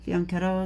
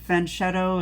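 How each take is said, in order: First: The word begins with a 'fee-an' sound. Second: The word begins with a 'fan' sound. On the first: "is the probably the correct way to say it" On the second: "is what Americans say for the most part"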